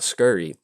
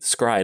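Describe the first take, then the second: First: The word is said as two syllables, 'scurry'. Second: The word is said as one syllable, 'scry'. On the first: The speaker calls it wrong. "not scurry" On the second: The speaker calls it right. "it's actually scry"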